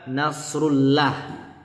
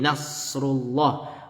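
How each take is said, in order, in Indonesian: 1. 'llah' diucapkan ringan dan tipis. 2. 'llah' diucapkan berat dan tebal. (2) "lafaz Allah dibaca tebal, tafkhim"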